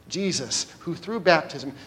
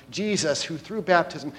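No difference in how they are said.

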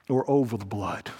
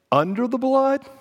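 First: OR OVER THE BLOOD dropped low and soft; falling alternative. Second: UNDER THE BLOOD pitched high, rising at the end; rising alternative. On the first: Preacher warning congregation of other choice, low and grave. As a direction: let "or over the blood" sink low and quiet. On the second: Preacher offering congregation first choice, raised and suspended. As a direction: lift "under the blood" high and leave it hanging. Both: Real, not acted.

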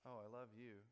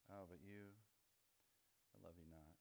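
First: Mock loves-me, pitched near normal; petal-plucking verdict. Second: Mock regret, low and hushed; petal-plucking rejection. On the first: God pulling flower petals over a person, mock approving. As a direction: pretend approval after a little "oh". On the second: God pulling flower petals over a person, mock rejecting. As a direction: let the pretend verdict sink low and soft. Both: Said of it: "for each person, God has a flower".

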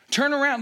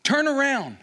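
First: High, loud repeat of turn around; pleading cry. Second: High, loud cry of turn around; pleading cry. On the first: Moses begging God again, loud cry. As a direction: call it out once more. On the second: Moses begging God to turn around, loud cry. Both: Retold or imitated. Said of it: "as he says".

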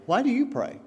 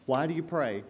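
First: "Why do you pray?" repeated higher, with weight on "do"; emphatic repeat. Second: Said in the usual way. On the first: Shown as a demonstration. Preacher repeating the question to the congregation, pressing on "do".

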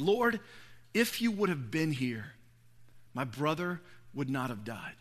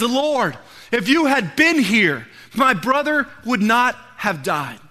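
First: Low, hushed lament with pauses; retold quiet grief. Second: Raised, loud, drawn-out appeal; retold pleading reproach. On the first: Mary at Jesus' feet, hushed retold grief. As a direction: let it sink softer toward the end. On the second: Martha to Jesus about her dead brother, loud retold reproach. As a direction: press the words out slowly and forcefully.

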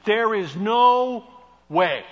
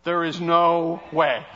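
First: NO held slow and loud; There is NO way, slow and loud; emphatic no way. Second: Slow, louder, with a laugh after; drawn out no way; There is no way, slow and knowing; emphatic no way. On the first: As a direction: stretch out no. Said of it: "You know what that means?". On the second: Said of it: "means you got that wrong". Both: Shown as a demonstration.

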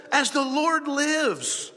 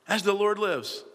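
First: High, slow, drawn-out solemn vow; grand oath. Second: Said in the usual way. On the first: Acted. Saul swearing to the witch, grand slow oath. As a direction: proclaim it as a hammed-up oath. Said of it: "Saul swore to her".

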